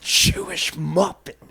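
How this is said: It is said in a biting, contemptuous tone. It is used as a slur.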